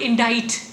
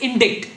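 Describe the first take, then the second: First: The c is silent, rhyming with 'invite'. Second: The c is sounded, as in 'in-dikt'. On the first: The speaker calls it right. "the word indict" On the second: The speaker calls it wrong. "many people say it as indict"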